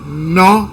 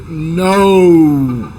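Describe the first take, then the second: First: The vowel is a single pure o sound. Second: The vowel glides from o toward u. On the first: "en español uno dice no" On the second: "en inglés uno dice no"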